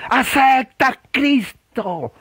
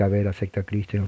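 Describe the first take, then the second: First: High, slow, drawn-out plea; impassioned altar-call wail; emotional preacher. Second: Low, soft, offhand invitation; murmured without any fervour; unemotional prayer. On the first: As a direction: imitate a fervent revivalist stretching every word. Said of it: "muy emotivas". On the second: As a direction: say it as a tame, understated altar call. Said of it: "No era oración de que". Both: Shown as a demonstration.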